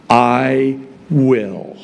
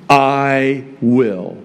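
First: "will" leaned on, falling; stress on will. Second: "I" leaned on, falling after; stress on I. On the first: Pastor reading God's promise, stress on will. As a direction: hit the word "will". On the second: Pastor reading God's promise, stress on I. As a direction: hit the word "I". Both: Shown as a demonstration. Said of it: "the emphasis is on "I will".

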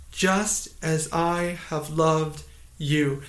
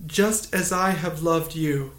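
First: "Just as I have loved you" drawn out slowly; slow, measured emphasis on every word of "Just as I have loved you"; slow, deliberate repetition. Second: Said in the usual way. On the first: Real, not acted. Verse repeated slowly for emphasis.

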